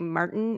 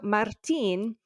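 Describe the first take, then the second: First: The T sound in the middle is dropped. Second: The T sound in the middle is clearly pronounced. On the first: The speaker calls it wrong. "in English, American English, we say Martin. It's like, where did the T go? It's gone" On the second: The speaker calls it right. "it needs to be there. I like that T"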